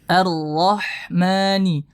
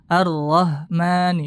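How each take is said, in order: First: The h is a strong breathy throat sound. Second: The h is a plain light h sound. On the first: The speaker calls it right. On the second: The speaker calls it wrong.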